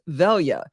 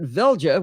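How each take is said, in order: First: The J is said as a Y. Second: The J is said as a hard J. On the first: The speaker calls it right. "pronounced as though it's a Y" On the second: The speaker calls it wrong. "with a hard J"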